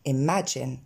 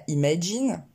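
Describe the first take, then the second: First: "imagine" with two è-like sounds, eh-MA-jen; correct vowels. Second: "imagine" with long French ee in first and last syllables; wrong vowels. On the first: Teacher modelling deux fois le son E, correct pronunciation. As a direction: lower "imagine", relaxed first and last vowels. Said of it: "deux fois le son E". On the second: Teacher showing what not to say, mispronunciation. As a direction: say "imagine" as ee-ma-jeen. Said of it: "On ne dira pas". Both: Shown as a demonstration.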